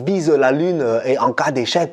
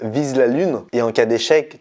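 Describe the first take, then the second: First: It is said in an imitated foreign accent. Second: It is said in the speaker's plain accent.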